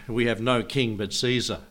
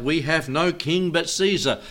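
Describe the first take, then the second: First: Said in the usual way. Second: Raised, higher mob cry; crowd crying out. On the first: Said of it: "they cried out". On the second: Retold or imitated. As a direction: call it out as the angry crowd. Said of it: "And they cried out".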